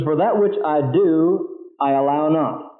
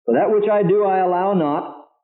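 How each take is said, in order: First: Slow, measured reading of the verse; slow scripture reading. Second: "I allow not" slowed and stressed; re-read with emphasis. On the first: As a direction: read each phrase slowly, with pauses. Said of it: "this is very difficult language to get". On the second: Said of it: "really put your heart into this and think with me". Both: Shown as a demonstration.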